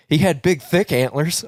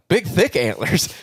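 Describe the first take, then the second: First: Said in the usual way. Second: Slow, raised, questioning repeat; incredulous echo. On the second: Retold or imitated. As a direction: echo it back in mock disbelief. He echoes her answer in disbelief.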